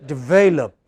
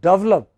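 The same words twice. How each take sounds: First: The stress is on the second syllable. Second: The stress is on the first syllable. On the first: The speaker calls it right. "It is this which is stressed" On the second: The speaker calls it wrong. "if you pronounce it as develop, then you know you are misunderstood"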